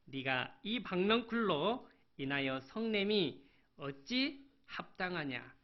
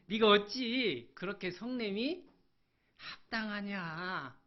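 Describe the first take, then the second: First: Said in the usual way. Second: High and loud, then a slow drawn-out question; God's stern rebuke. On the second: Acted. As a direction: rebuke him, stretching the last word. Preacher voices God rebuking Jonah. (크게 꾸짖다가 느리게 늘이는 하나님의 물음)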